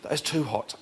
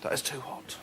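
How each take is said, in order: First: It sounds pained and shocked, like scalding custard. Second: It sounds mild and relaxed, like a hot bath.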